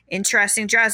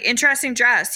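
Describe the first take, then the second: First: It sounds disapproving and shaming. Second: It sounds admiring and impressed.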